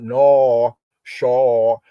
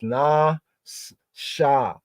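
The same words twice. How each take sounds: First: "nor, shore" split, each with a rounded aw; "nor... shore", loud, rounded vowels instead of ah; wrong W-glide vowels. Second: "na, sha" split, both on open ah; "na... s-, sha", syllable by syllable, pure ah; no W glide. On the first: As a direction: sound out "nor", then "shore", drawn out as aw. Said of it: "Not nor". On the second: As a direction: sound out "na", then "sha", with no w at the end. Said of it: "There's no W glide". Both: Shown as a demonstration.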